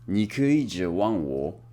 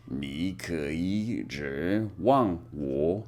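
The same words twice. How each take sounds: First: 你可以指望我 at a steady, slow pace; slow Mandarin drill. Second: 你可以指望我 drawn out, lower and softer; very slow soft Mandarin drill. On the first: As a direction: say 你可以指望我 carefully. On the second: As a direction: practise 你可以指望我 very slowly. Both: Shown as a demonstration. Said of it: "You can count on me".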